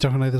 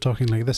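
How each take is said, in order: First: It is spoken very quickly without stopping. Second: It is spoken at a normal, relaxed speed. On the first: "I'd be talking like this all the way through" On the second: "instead of talking like this"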